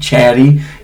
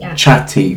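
First: The middle consonant sounds like a soft D. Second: The middle consonant is a crisp T sound. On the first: "American chatty. It sounds like you're saying sort of like a D" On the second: "with a double T"

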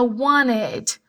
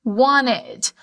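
First: The T sound is nearly dropped. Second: The T sound is nearly dropped.

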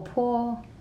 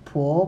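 First: The pitch stays high and level. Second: The pitch rises from mid to high.

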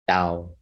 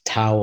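First: The word begins with a D sound. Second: The word begins with a T sound. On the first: The speaker calls it right. "it's a more of a D in pronunciation than it is a T" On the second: The speaker calls it wrong. "So that would be like the Western pronunciation"

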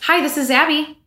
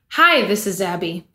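First: The voice rises in an upbeat way. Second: The voice falls in a flat, sad way. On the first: "our voice goes up, like up tone" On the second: "What if I was like"

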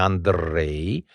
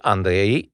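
First: The r is trilled with four taps. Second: The r is trilled with two taps. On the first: "ai făcut 4" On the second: "e 2"

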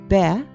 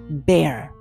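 First: It ends open, without an R sound. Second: It ends with a clear R sound.

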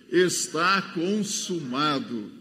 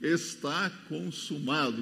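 First: It is said very loudly. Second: It is said at normal volume.

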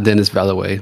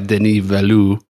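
First: The name is said as English spelling suggests. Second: The name is said with French-style sounds. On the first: The speaker calls it wrong. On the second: The speaker calls it right.

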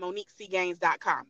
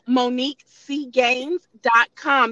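First: It is said fast. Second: It is said slowly.

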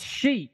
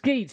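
First: The name begins with an sh sound. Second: The name begins with an sk sound. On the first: The speaker calls it right. "that's Sheech" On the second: The speaker calls it wrong. "I don't think that's Skeech"

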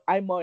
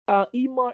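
First: The name is said with an English pronunciation. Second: The name is said with a French pronunciation. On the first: "but Imar in English" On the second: "Imar in French"

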